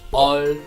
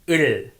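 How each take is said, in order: First: The vowel is open, like uh. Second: The vowel is unrounded with spread lips. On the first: The speaker calls it wrong. "or 얼" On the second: The speaker calls it right. "Don't make a circle with your lips. Your mouth shape looks like flag"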